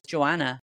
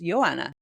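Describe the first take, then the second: First: The name is said with English pronunciation. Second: The name is said with Polish pronunciation. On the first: The speaker calls it wrong. "who I called Joanna for years" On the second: The speaker calls it right. "in Poland it's pronounced Joanna"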